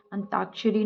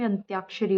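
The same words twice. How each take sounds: First: अंताक्षरी as "an-taak-shari"; wrong pronunciation. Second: अंत्याक्षरी as "ant-yaak-shari"; correct pronunciation. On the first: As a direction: say अंताक्षरी without y after t. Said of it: "अंताक्षरी ना होके". (अंताक्षरी में "ता" बोलें) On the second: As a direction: say अंत्याक्षरी with y after t. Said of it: "अंत्याक्षरी होता है". (अंत्याक्षरी में "त्या" बोलें) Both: Shown as a demonstration.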